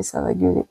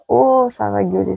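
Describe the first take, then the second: First: Whispered repeat of the line; whispered echo. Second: Said in the usual way. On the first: Real, not acted. Repeating her prediction to viewers, whispered. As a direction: breathe the repeat as a secret.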